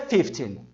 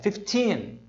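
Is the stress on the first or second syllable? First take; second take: first; second. First: The stress is on the first syllable. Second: The stress is on the second syllable. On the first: It can be mistaken for fifty. The speaker calls it wrong. "não é fifteen" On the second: It is clearly heard as fifteen. The speaker calls it right. "é fifteen. A tônica está aqui"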